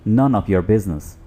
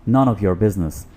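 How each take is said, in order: Both takes have the same delivery.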